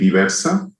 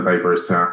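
First: The name is pronounced the Spanish way. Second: The name is pronounced the English way. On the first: "there's two pronunciations in Spanish ... We say Diversa" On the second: "And in English, we sell Diversa"

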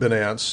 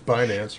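First: The name is said the Canadian way. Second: The name is said the American way.

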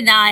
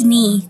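First: The vowel sounds like the one in 'sigh'. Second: The vowel sounds like the one in 'see'. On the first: The speaker calls it wrong. "They say Nye" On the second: The speaker calls it right. "My last name is Nee"

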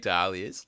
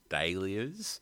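First: The word is said in the non-British pronunciation. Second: The word is said in the British pronunciation. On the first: "But I say dahlias" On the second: "people in Britain, ... they all say dahlias"

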